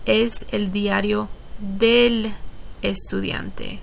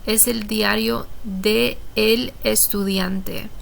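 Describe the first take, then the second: First: De and el blend into one syllable. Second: De and el are said as separate words. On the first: The speaker calls it right. "It runs together, it sounds smoother" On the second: The speaker calls it wrong. "we need to combine those"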